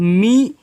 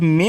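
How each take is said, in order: First: The vowel is said as a long 'ee'. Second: The vowel is said as a short 'eh'. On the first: The speaker calls it right. "तो मी हो जाएगा" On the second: The speaker calls it wrong. "लेकिन नहीं बच्चों"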